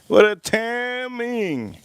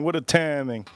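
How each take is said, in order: First: High and very slow, savouring each word; drawn-out amazement. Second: Said in the usual way. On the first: Shown as a demonstration. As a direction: stretch it out in mock disbelief.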